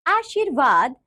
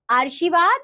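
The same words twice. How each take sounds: First: Said in the usual way. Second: "आशीर्वाद" as "aar-shi-vaad"; wrong pronunciation. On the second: Shown as a demonstration. Teacher showing pupils the r error, "आशीर्वाद" mispronounced as "aarshivaad". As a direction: move the r of "आशीर्वाद" up behind the first vowel. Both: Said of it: "र संबंधी अशुद्धियां".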